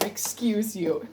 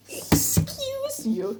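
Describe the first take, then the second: First: Said in the usual way. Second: High, slow, drawn-out excuse you; imitating a catchphrase voice. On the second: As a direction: stretch it out high like a quote. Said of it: "That's also a reference".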